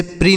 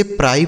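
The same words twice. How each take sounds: First: "प्री" rhyming with "free"; PRI read as "pree". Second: "प्राई" rhyming with "fry"; PRI read as "pry". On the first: Teacher showing pupils the wrong reading, "प्री" with ee. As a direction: say "प्री" with a long ee vowel. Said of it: "इसे प्री नहीं पढ़ना है". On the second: Teacher giving pupils the correct reading, "प्राई" with eye sound. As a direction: say "प्राई" with a wide eye diphthong. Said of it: "इसे प्राई पढ़ना है". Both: Shown as a demonstration.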